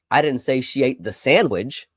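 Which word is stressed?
sandwich. The word "sandwich" carries the main stress. She ate something different. "She ate something else"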